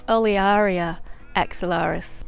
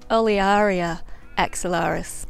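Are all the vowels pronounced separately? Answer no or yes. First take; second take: yes; yes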